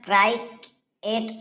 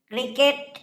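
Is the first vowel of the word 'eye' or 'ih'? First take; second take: eye; ih. First: The first vowel sounds like 'eye'. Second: The first vowel sounds like 'ih'. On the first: The speaker calls it wrong. "ওটা ক্রাইকেট হবে না" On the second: The speaker calls it right. "ওটা ক্রিকেট।"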